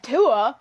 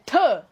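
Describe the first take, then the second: First: The word is said softly, without extra force. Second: The word is spat out with strong force. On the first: The speaker calls it wrong. "you're not saying Tua" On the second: The speaker calls it right. "you really gotta put your emphasis"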